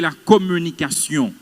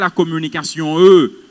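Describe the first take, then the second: First: The final word ends cleanly with no added vowel. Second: An extra 'euh' vowel follows the final word. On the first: The speaker calls it right. "vous étudiez la communication" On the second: The speaker calls it wrong. "vous n'étudiez pas la communication eux"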